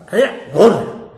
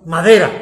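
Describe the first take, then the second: First: "Madera, gorda" said louder as one proud phrase; repeated "Madera, gorda". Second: "Madera" said loud and firm, falling; stressed "Madera". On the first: Preacher boasting of the chair he built, "Madera, gorda" repeated loudly. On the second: Preacher showing off his sturdy homemade chair, loud "Madera". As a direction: lean on "Madera" like knocking on wood. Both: Shown as a demonstration.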